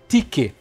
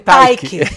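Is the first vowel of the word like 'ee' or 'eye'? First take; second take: ee; eye. First: The first vowel sounds like 'ee'. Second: The first vowel sounds like 'eye'. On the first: The speaker calls it right. "existe o tique" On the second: The speaker calls it wrong. "eu falei taike"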